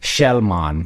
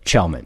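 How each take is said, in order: First: The name is said the Swedish way. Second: The name is said the everyday, anglicized way. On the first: "when I ask real Swedes how to pronounce it, they say Shellman" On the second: "You nailed it"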